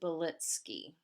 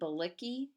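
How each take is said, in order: First: The name is said the Polish way. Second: The name is read the English way, as spelled. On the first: The speaker calls it right. "it's actually in Polish pronounced" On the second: The speaker calls it wrong. "it looks like we would pronounce it"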